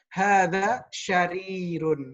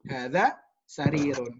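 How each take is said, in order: First: The second word starts with an sh sound. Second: The second word starts with an s sound. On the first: The speaker calls it wrong. "masih mengucapkan atau melafalkan sin seperti dengan huruf shin" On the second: The speaker calls it right. "dilatih untuk mengucapkan hadza sarirun"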